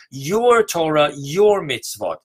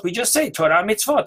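First: Your slow and louder before Torah and mitzvot; stress on your. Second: Said in the usual way. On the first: Shown as a demonstration. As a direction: press down on Your each time. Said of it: "we are precisely emphasizing your Torah". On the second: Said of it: "when we say Torah and mitzvot".

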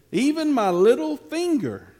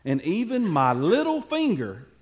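First: Little finger said much higher and louder; emphatic declaration. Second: Said in the usual way. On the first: Shown as a demonstration. David vowing to his men, loud and emphatic. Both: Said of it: "everybody show me your little finger".

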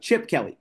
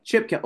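First: Said in the usual way. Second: "Chip" pitched higher and punched hard; emphatic correction. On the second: Real, not acted. Host correcting his own name slip to co-host, emphatic "Chip". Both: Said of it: "Did I say Brian Kelly?".

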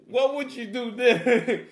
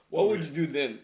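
First: "What would you do then?" slow, louder, rising; slow emphatic retake. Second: Said in the usual way. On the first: Shown as a demonstration. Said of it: "louder slower retake". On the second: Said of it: "repeats line with more force".

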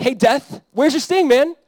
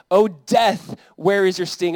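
First: High, loud casual taunt; mocking, belittling. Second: Scripture declamation. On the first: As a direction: jeer at death as a beaten rival. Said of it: "he's, like, mocking or belittling death". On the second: Acted. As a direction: proclaim the verse with force. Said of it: "That's why Paul says in First Corinthians".

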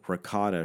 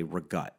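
First: RICOTTA with all three syllables, ending in an A; standard ricotta. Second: REGUT, ricotta with a G and no last vowel; South Philly "ri-GUT" for ricotta; bastardized ricotta. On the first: Shown as a demonstration. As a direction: say "ricotta" in full, final vowel sounded. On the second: Retold or imitated. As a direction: say "regut", chopped off after the T. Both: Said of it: "pronounce words that way".

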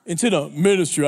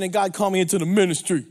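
First: "Into the ministry" said lower and deeper like a solemn minister; solemn preacher voice. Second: Said in the usual way. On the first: Shown as a demonstration. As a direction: drop into a grave pulpit tone on "Into the ministry". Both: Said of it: "I had to change my voice".

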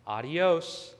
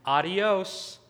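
First: Judge's retort. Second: Higher, louder mocking farewell; cheeky, laughing. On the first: Retold or imitated. Judge dismissing the defendant, firm retort. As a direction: hand the word back as a firm dismissal. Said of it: "The judge says". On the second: Defendant walking away from the judge, cheeky mock farewell. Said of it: "while laughing, just the words".

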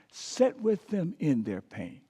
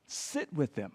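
First: Said in the usual way. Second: Whispered. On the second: Shown as a demonstration. Preacher showing how to sit with grief, whispered. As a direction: whisper sit with them low.

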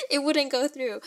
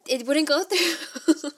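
First: Said in the usual way. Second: Higher and slow, laughing through the words; laughing in disbelief. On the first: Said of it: "repeats line plainly". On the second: Retold or imitated. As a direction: laugh at your own bad luck. Failed wire transfer, laughing.

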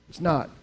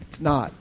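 The two takes are said the same way.

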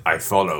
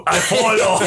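First: Mock caveman grunt. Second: Laughing mock grunt. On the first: Friend imitating his grunted reply. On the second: Echoing the grunted line, laughing.

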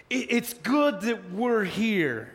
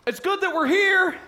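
First: Dazed Peter. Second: High, loud eager blurt; eager disciple blurting nonsense; blurting Peter. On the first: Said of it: "Peter's like". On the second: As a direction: blurt it out proudly, much higher. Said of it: "Dynamite saying, Peter". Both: Retold or imitated.

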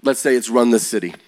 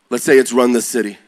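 Both takes have the same delivery.

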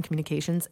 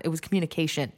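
First: "communications" with the S at the end; wrong plural form. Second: "communication" with no S at the end; plain "communication", ending cleanly on N; correct singular. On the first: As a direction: stress the final S in "communications". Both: Shown as a demonstration. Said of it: "It was not".

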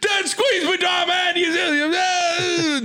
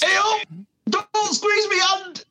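First: Very high shouted squeaky toy rant. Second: High, slow squeaky toy whine. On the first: Retold or imitated. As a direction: shriek it like a squeezed rubber toy. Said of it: "just a, a rant, an English rant". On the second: Pretend. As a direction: squeal it like a squeezed rubber toy. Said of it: "what would it sound like, if I squeeze?".

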